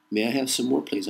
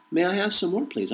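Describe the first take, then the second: First: Said in the usual way. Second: Much higher, timid rising plea; pleading beggar. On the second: Pretend. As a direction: beg meekly like a hungry orphan. Repeated begging plea line.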